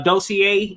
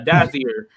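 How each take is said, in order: First: The name is said with an s-like middle sound. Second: The name is said with a z middle sound. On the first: The speaker calls it wrong. "I said Dossier" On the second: The speaker calls it right. "but no, uh, Dozier"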